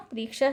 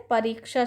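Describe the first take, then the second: First: परीक्षा squeezed to "priksha"; wrong pronunciation. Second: परीक्षा with a full "pa": "pariksha"; correct pronunciation. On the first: Teacher showing students the error, परीक्षा as "priksha". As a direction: drop the first a of परीक्षा: "priksha". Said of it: "शब्द गलत है". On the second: Teacher giving students the right form, परीक्षा as "pa-riksha". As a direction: sound the first a of परीक्षा. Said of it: "शब्द सही है". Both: Shown as a demonstration.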